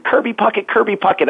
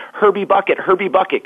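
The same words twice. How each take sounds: First: Put-on high little-boy voice, "Kirby Puckett" said correctly; child saying the name. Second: Put-on high child voice, "Herbie Bucket" with H for K and B for P; lisping child. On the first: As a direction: call the name like an excited first-grader. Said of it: "I actually said". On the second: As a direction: mangle the name like a lisping first-grader. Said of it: "'cause I couldn't say his name".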